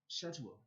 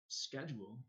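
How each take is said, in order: First: It is said with the British pronunciation. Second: It is said with the American pronunciation. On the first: This is how the British say it. "I pronounced it schedule" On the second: This is how Americans say it. "I didn't pronounce it schedule"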